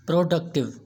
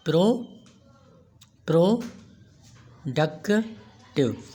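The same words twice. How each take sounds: First: Said in the usual way. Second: प्रोडक्टिव broken into pro, duk, tiv with long pauses; teacher sounding out प्रोडक्टिव, one syllable at a time. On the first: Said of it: "अब ये हमारा ट्राइसिलेबल है". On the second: Shown as a demonstration. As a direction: say प्रोडक्टिव very slowly in three separate beats. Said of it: "ज़ुबान की तीन movements के साथ".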